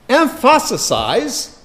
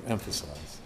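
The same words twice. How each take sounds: First: "emphasize" drawn out as em-FASS-uh-size, high and slow; botched pronunciation. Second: Said in the usual way. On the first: Real, not acted. Preacher fumbling a word mid-sermon, "emphasize" mangled as em-FASS-uh-size. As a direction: stretch "emphasize" oddly, with a raised, stressed middle. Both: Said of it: "that's Hebrew for emphasize".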